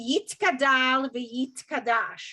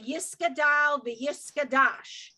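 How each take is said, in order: First: The letter is said with a t sound. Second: The letter is said with an s sound. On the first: This is how the conservative movement says it. "when it's actually"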